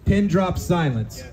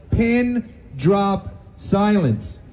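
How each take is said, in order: First: Said in the usual way. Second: Pin drop silence drawn out very slowly; a slow, weighty "Pin drop silence"; slow stressed. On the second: Shown as a demonstration. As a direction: stretch each word of "Pin drop silence" and punch "pin".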